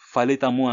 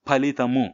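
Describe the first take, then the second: First: The first sound is an f, lips apart. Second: The first sound is a breathy p, lips touching. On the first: The speaker calls it wrong. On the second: The speaker calls it right.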